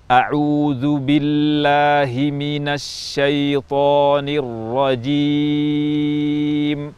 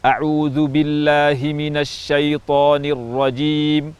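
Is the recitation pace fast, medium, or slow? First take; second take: slow; fast. First: It is recited at a slow pace. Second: It is recited at a fast pace. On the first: "at-tahqiq, yaitu tempo lambat" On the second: "tempo cepat atau al-hadr"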